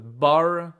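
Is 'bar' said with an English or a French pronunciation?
English. The word is said with an English pronunciation. The speaker calls it wrong. "it's not a bar"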